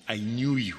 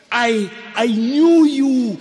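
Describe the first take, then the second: First: "I knew you" said low and soft, falling; gentle God voice. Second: "I, I knew you" high, loud and slow, stressing "knew"; jubilant God voice. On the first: God reassuring a scared Jeremiah, soft and low. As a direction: murmur "I knew you" softly, low and tender. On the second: God proclaiming to Jeremiah, high loud and slow. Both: Acted. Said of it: "God says to Jeremiah".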